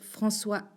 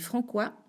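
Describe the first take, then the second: First: The middle consonant is an s sound. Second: The middle consonant is a k sound. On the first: The speaker calls it right. "avec une C D I" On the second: The speaker calls it wrong. "sinon on dit Francois"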